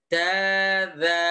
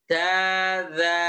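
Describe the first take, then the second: Both takes have the same delivery.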